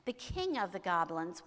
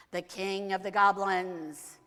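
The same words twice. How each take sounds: First: Said in the usual way. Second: Slow, loud, ominous announcement; grand villain reveal. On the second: A narrator's reading. Storyteller announces the eighth night's visitor, slow and booming. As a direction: proclaim it with drawn-out grandeur.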